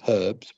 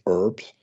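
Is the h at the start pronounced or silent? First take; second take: pronounced; silent. First: It is said the British way, with h. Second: It is said the American way, without h.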